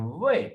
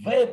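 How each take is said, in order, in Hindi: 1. इस शब्द पर पिच ऊपर की ओर उठती है। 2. पिच तेज़ी से नीचे गिरती है और कर्कश सुनाई देती है। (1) "राइजिंग टोन की तरह बोल रहे होंगे, जिस तरह अप टोन होती है" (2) "फोर टोन को हम वे पढ़ते हैं, नीचे की तरफ आवाज आती है और हार्श टोन होती है"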